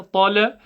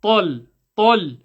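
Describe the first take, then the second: First: "tala" with an added short a after the l; "tala" said with a bouncing final vowel; wrong extra vowel. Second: "tal" stopped on the l, no vowel after; firm one-syllable "tal"; correct closed syllable. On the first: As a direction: show the mistake "tala", two syllables. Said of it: "It's not ta". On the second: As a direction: say "tal" full-mouthed and end on the l. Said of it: "it's tal". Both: Shown as a demonstration.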